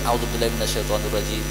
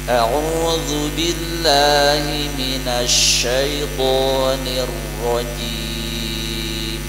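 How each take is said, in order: First: The doubled consonants are shortened without pressure. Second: The doubled consonants are held with firm pressure. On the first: The speaker calls it wrong. "Kita terlalu sering ... tidak ada tekanan" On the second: The speaker calls it right. "Perhatikan tekanan-tekanan pada tasydid"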